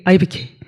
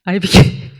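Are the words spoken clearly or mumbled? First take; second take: mumbled; mumbled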